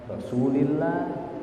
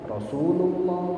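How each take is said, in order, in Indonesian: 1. Vokal setelah Rasul adalah i. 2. Vokal setelah Rasul adalah u. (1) "Kapan saya bilang i"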